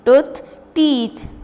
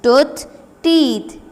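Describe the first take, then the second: First: "tooth, teeth" repeated with a final fall; repeat drill. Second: "Tooth, teeth" repeated with a rise then a fall; repeat drill. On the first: Teacher repeating plurals for pupils, "tooth, teeth". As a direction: say "tooth, teeth" once more for pupils to copy. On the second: Teacher drilling plurals for pupils, "Tooth, teeth". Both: Shown as a demonstration. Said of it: "its plural will be teeth".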